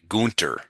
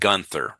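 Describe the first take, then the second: First: The middle consonant is a hard t sound. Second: The middle consonant is a soft th sound. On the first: This is how German speakers say it. "The Germans would pronounce it Gunter. So the T H sound for them was a T sound" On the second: This is how English speakers say it. "we would pronounce it Gunther"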